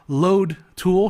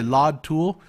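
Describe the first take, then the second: First: It is said in a plain native accent. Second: It is said with a foreign-sounding vowel.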